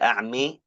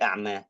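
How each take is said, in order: First: The final vowel is tilted toward an 'i' sound. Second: The final vowel is a plain open 'a' sound. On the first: "satunya kena imalah" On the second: "satunya enggak kena imalah"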